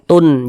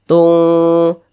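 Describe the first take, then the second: First: The n is pronounced clearly and fully. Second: The n is blurred, nasal and held longer. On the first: The speaker calls it wrong. "dibaca jelas, dibaca sempurna" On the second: The speaker calls it right. "kita tahan, kita panjangkan sejenak"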